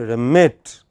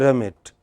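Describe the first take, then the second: First: The stressed syllable stands apart clearly from the other. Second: The stressed syllable barely stands apart from the other. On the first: The speaker calls it right. "the stressed syllable stands apart clearly from other syllables" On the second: The speaker calls it wrong. "don't say remit"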